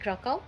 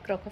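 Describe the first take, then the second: First: The name ends in an 'ow' sound. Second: The name ends in a 'v' sound.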